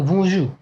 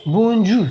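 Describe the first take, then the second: First: बोंजू with a French nasal "bon", gentle "jour"; nasal French Bonjour. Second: बोंजू with a hard English n and j, no nasal; बोंजू said the English way, consonants spelled out; English-style Bonjour. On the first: Shown as a demonstration. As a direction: squeeze बोंजू through the nose like a French speaker. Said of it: "थोड़ा सा नाक से दबा के". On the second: Retold or imitated. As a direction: say बोंजू like an English boy reading it. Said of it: "English के जो लड़का होगा इसको बोलेगा".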